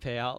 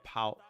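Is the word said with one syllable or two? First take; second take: two; one. First: The word is said with two full syllables. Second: The word is squeezed into a single syllable. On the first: "Don't say payout like Alpine" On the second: "apparently you get uh made fun of a lot for saying pout"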